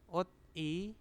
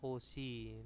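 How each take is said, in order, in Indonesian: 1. Suku katanya diucapkan terpisah, tanpa disambung. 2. Konsonan itu menyambung ke suku kata kedua.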